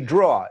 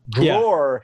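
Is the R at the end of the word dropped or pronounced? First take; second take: dropped; pronounced. First: The final R sound is dropped. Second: The final R sound is pronounced.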